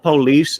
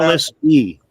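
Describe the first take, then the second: First: It is said the usual way, two syllables. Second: An extra 'ee' sound is added at the end. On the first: The speaker calls it wrong. "It's not police" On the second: The speaker calls it right. "police E because they are policy enforcers"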